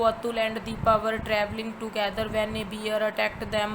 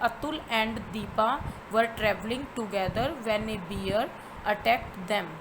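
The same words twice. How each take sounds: First: It runs straight on after 'them' without pausing. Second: It stops with a clear pause after 'them'. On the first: The speaker calls it wrong. "मैं ऐसे तो नहीं बोल सकती ना इसको" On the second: The speaker calls it right. "देम पे मैंने स्टॉप लगाया है"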